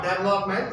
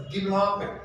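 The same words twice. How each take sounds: First: Development starting with 'dev'; wrong pronunciation shown. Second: Development starting with 'di'; corrected pronunciation. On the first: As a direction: show the mistaken 'DEV' opening of development. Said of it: "It's not development". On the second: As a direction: model development with a 'di' opening syllable. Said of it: "it's development". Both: Shown as a demonstration.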